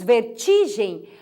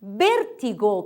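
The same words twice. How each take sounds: First: Vertigem said ver-TCHI-gem; Portuguese stress. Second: Vértigo said slowly, BÉR-ti-go; Spanish stress. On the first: Teacher giving the Portuguese form, vertigem stressed on TI. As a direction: lean on TI in vertigem. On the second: Teacher giving the Spanish word, Vértigo stressed on VÉR. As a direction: draw out the first syllable of Vértigo. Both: Shown as a demonstration. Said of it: "em português dizemos vertigem".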